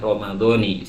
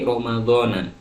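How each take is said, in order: First: The word ends with an 'i' vowel. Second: The word ends with an 'a' vowel. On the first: The speaker calls it right. "yang betul adalah" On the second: The speaker calls it wrong. "Rata-rata orang akan mengucapkan"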